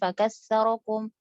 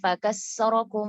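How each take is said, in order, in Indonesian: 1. Konsonan di tengah adalah bunyi 'th'. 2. Konsonan di tengah adalah bunyi 's' biasa. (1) "Harusnya huruf sa" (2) "ini yang salahnya ya"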